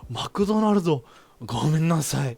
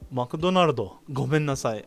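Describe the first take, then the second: First: It is said in an exaggerated, hammy way. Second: It is said in a plain, natural way.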